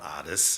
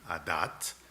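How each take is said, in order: First: The word ends with an s sound. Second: The word ends with a t sound.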